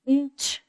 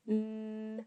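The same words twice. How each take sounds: First: Said in the usual way. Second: Nch with the n and ch said one by one, softer; pulled apart sounds. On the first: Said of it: "So we can say the sound". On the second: Shown as a demonstration. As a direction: pull nch apart into separate sounds, softly. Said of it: "we can really pull that apart and say".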